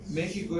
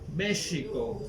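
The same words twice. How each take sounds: First: México is pronounced the Spanish way. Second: México is pronounced the Nahuatl way. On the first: This is the Castilian form of the name. "México es decirlo en castellano" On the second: This is the original native name. "pero en agua. ... Ese es su nombre correcto"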